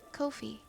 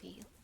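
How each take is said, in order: First: It is said to rhyme with no fee. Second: It is said like the drink coffee. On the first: "It rhymes with no fee" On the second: "like buy me a coffee"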